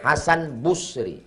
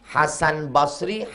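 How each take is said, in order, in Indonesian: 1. Suku kata pertama nama keluarga memiliki vokal u. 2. Suku kata pertama nama keluarga memiliki vokal a. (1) "Ketiga-tiganya benar" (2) "Ketiga-tiganya benar"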